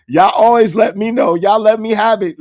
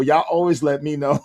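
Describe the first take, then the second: First: Louder and higher, hammering ALWAYS; emphatic louder repeat. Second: Said in the usual way. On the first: Real, not acted. Streamer telling his chat they always correct him, louder and emphatic. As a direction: push it out hard so chat hears.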